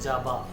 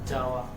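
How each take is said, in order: First: The middle sound is a b. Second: The middle sound is a w glide.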